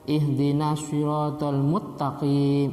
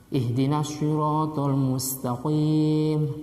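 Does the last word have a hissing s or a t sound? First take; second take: t sound; hissing s. First: The last word has a t instead of s. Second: The last word has a hissing s sound. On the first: The speaker calls it wrong. "ternyata tidak berdesis" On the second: The speaker calls it right. "yang mestinya harus berdesis"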